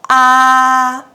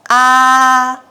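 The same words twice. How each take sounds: First: The pitch stays high and level throughout. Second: The pitch stays high and level throughout.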